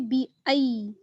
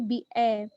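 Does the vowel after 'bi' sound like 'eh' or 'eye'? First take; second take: eye; eh. First: The second vowel glides like 'eye'. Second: The second vowel sounds like a plain 'eh'. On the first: The speaker calls it right. "बी ए नहीं बल्कि बी आई" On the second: The speaker calls it wrong. "ऐसी आवाज ना आए बी ए"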